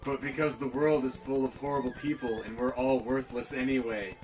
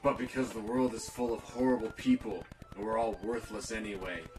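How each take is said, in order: First: It is read in a normal voice. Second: It is read in a deep, dark monster voice.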